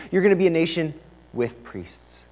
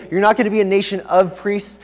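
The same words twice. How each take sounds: First: "with" set apart and stressed. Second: "of" leaned on and stressed. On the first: Preacher voices God's new plan for Israel, stress on "with". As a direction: land on "with" as the changed word. Contrasts with against of. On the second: Preacher voices God correcting Israel, stress on "of". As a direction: set "of" out as the key word. Contrasts of with with. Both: Retold or imitated.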